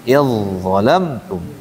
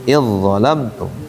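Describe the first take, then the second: Both takes have the same delivery.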